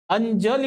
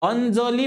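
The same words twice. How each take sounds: First: The 'j' is a palatal, y-like sound. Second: The 'j' is a dental 'dz' sound. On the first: The speaker calls it right. "या ज चा उच्चार बघा, य सारखा होतो" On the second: The speaker calls it wrong. "अंजली म्हणत नाही"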